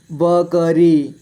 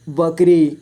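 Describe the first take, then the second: First: बकरी slowly as ब, क, री; letter by letter. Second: Said in the usual way. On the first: Shown as a demonstration. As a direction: give क its own vowel in बकरी. (बकरी को तोड़कर: ब, क, री) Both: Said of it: "थोड़ा फास्ट पढ़ेंगे".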